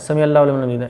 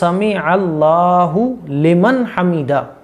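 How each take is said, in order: First: The phrase is said hurriedly and unclearly. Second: The phrase is said calmly and carefully. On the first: The speaker calls it wrong. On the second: The speaker calls it right.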